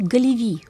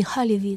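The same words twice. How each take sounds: First: “Галеви”以硬音 g 开头; G音读法. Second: “Халеви”以送气的 kh/h 音开头; H音读法. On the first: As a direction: say “Галеви” with a hard G at the start. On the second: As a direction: say “Халеви” with an H-like Х instead of G. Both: Shown as a demonstration. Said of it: "там по-разному, э, транскрипция произносится".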